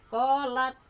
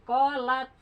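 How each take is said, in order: Both takes have the same delivery.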